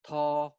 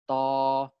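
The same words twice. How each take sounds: First: The first consonant has a puff of air. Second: The first consonant has no puff of air. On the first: "aspirated stops are stops produced with a puff of air" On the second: "we also have unaspirated stops"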